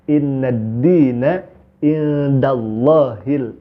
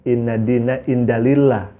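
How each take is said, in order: First: The last word ends with the syllable 'hil'. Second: The last word ends with the syllable 'lah'. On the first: The speaker calls it right. "Yang betul" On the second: The speaker calls it wrong. "Itu salah besar"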